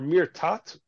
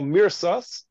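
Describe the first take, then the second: First: The word is said in modern Hebrew pronunciation. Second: The word is said in traditional, non-modern Hebrew pronunciation. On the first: "if you pronounce it in modern Hebrew" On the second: "in halachic terminology, that's what we call mirsas"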